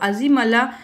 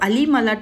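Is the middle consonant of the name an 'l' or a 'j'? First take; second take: j; l. First: The middle consonant sounds like a 'j'. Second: The middle consonant sounds like an 'l'. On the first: The speaker calls it wrong. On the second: The speaker calls it right.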